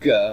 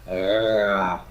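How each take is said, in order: First: The consonant is a full stop. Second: The consonant is a growly fricative. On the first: "the dotted Gimel would be G" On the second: "the fricative Gimel would be Ra. It sounds like you're growling at somebody"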